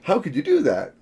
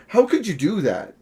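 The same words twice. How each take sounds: First: It is said in an excited, intrigued tone. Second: It is said in an accusing, disapproving tone.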